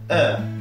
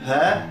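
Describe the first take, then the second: First: The word starts directly on the vowel. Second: The word starts with a breathy h sound. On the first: The speaker calls it wrong. "et non pas her" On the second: The speaker calls it right. "l'anglais veillera à bien prononcer le H aspiré"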